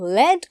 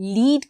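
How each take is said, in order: First: It is the pronunciation used for the metal. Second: It is the pronunciation used for guiding. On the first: It names the metal. "lead को अर्थ हो सिसा" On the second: It means to guide the way. "lead को अर्थ हो बाटो देखाउँदै लैजानु"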